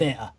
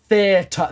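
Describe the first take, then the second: First: It is said in a British accent. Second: It is said with a clearly sounded t.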